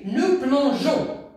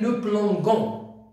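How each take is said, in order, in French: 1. Le g est doux, comme le son zh. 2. Le g est dur, comme dans go. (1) "On a ajouté E pour prononcer J" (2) "Si on a effacé E, on va dire"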